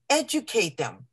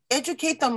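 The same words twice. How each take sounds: First: Said in the usual way. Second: "educate them" repeated much higher, pressing hard on "educate"; insistent second "educate them"; emphatic repeat. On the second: Shown as a demonstration. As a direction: drive home "educate them" the second time. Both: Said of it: "So I stress it".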